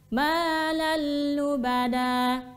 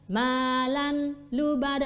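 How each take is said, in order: First: The n sound merges into a doubled l. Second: The n sound is kept before the l. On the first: The speaker calls it right. "Insyaallah yang tepat adalah malal lubada" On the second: The speaker calls it wrong. "Ini ini bacaan yang kurang tepat"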